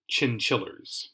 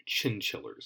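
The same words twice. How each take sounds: First: Said in the usual way. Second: Breathy whispered repeat of Chinchillers, much softer; whispered echo. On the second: Real, not acted. Podcaster repeating the ice cream brand name, whispered.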